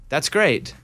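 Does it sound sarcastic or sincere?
sarcastic. It is said with a sarcastic tone.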